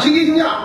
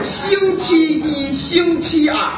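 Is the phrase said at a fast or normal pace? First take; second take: fast; normal. First: It is said quickly, run together Beijing-style. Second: It is said at a normal, clear pace.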